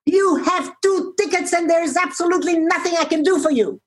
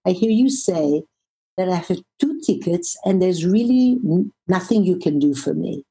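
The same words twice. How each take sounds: First: Imitating a shout. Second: Compassionate voice. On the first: Airline agent turning away a traveller, imitated shout. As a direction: mimic someone shouting, pitched well up. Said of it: "she shouts at me". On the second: Retold or imitated. Traveller echoing an exhausted agent's words, compassionate. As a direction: reflect it back calmly and kindly. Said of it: "in a very compassionate w-, voice".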